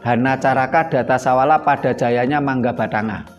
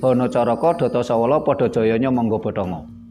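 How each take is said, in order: First: The vowels are pronounced as open a-sounds. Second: The vowels are pronounced as rounded o-sounds. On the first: This is the older reading. "aksara Jawa itu" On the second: This is the newer reading. "dalam sastra Jawa anyar dibaca menjadi"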